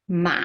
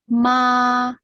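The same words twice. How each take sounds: First: The pitch dips low then rises again. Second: The pitch stays high and level. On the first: "the third tone ... it will go down and go up" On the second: "the first tone will be ma, ma. So it's even horizontal"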